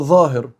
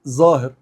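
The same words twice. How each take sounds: First: The word begins with an emphatic 'dh' sound. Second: The word begins with a 'z' sound.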